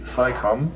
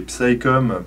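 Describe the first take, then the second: First: The initial P sound is silent. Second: The initial P sound is pronounced. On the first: "pour ceux qui ne prononcent pas le P" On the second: "pour euh, ceux qui ne savent pas prononcer l'anglais comme, comme moi"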